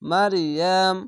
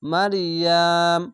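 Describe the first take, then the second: First: It ends on a held m, then stops. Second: It ends on a held m, then stops.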